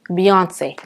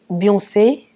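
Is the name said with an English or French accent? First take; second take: English; French. First: The name is said with an English accent. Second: The name is said with a French accent. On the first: "Mais en anglais, la prononciation, c'est Beyoncé" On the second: "En français, c'est Beyoncé ou quelque chose un peu comme ça"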